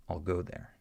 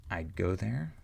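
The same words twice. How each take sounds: First: "I'll go there" with I'll like "all"; reduced I'll. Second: "I'd go there" with the d held, not released; unreleased d in "I'd"; stopped d. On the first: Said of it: "this sentence". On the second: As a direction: stop the d of "I'd" before "go". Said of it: "if I say". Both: Shown as a demonstration.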